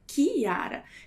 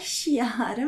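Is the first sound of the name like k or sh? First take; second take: k; sh. First: The name begins with a hard k sound. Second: The name begins with a soft sh sound. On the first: The speaker calls it right. "mas é Chiara" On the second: The speaker calls it wrong. "não é Chiara"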